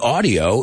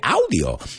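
First: The first vowel sounds like 'aw'. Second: The first vowel sounds like 'ow'. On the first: "We say aw" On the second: "You say ow"

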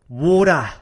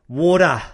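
No difference in how they are said.

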